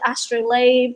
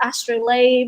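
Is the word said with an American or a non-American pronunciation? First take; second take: American; American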